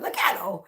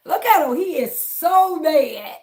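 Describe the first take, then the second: First: Said in the usual way. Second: Louder, higher, gloating jeer; drawn-out mocking he is so mad; mocking taunt. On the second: Real, not acted. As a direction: crow over the angry troll. Taunting a troll on stream.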